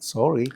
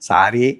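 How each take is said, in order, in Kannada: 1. ಇದನ್ನು ಸ್ಟೈಲಾಗಿ, ಇಂಗ್ಲಿಷ್ ಧ್ವನಿಯ ಉಚ್ಚಾರಣೆಯಲ್ಲಿ ಹೇಳಲಾಗಿದೆ. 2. ಇದನ್ನು ಸರಳವಾಗಿ ಸ್ಥಳೀಯ ಕನ್ನಡ ಉಚ್ಚಾರಣೆಯಲ್ಲಿ ಹೇಳಲಾಗಿದೆ. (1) "ಸ್ಟೈಲಿಶ್ ಆಗಿ" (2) "ಸಾರಿ ಅಂದ್ರೆ ಆಗಲ್ಲ"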